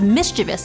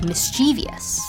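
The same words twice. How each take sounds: First: The word has its plain ending. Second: The word ends like the word devious. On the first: This is the original form. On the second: The form is influenced by a similar word.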